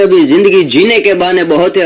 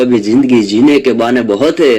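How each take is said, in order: First: Raised recitation. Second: Said in the usual way. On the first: Shown as a demonstration.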